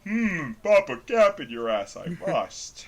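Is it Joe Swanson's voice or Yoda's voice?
Joe Swanson. It is said in a Joe Swanson voice.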